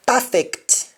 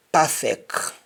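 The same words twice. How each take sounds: First: Said in the usual way. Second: Perfect ending on K, as "perfeck"; Jamaican pronunciation. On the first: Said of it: "English words that end with C T". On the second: Shown as a demonstration. Teacher showing Jamaican speech, perfect said as "perfeck". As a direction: drop the last T of perfect. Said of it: "change that C T to either C K".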